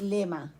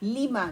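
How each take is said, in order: First: The first vowel sounds like 'e'. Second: The first vowel sounds like 'i'. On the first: The speaker calls it wrong. "No लेमा" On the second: The speaker calls it right. "लीमा no लेमा"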